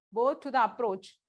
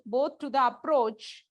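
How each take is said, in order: First: Said in the usual way. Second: "both to the approach" drawn out slowly for note-taking; slow classroom dictation. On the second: Shown as a demonstration. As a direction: dictate each word slowly so students can write.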